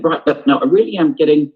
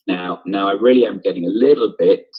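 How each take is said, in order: First: Frustrated, pushed a little louder. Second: Said in the usual way. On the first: Shown as a demonstration. Teacher demos John Tate's first line, mildly frustrated. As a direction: let the frustration leak into it. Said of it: "I'm gonna be quite frustrated when I'm saying". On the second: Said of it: "His first line here is".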